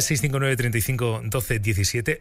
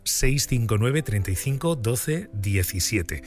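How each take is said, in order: First: The number is said fast. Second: The number is said slowly.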